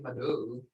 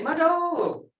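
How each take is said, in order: First: It is said flatly, without feeling. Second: It is said with expression and appreciation.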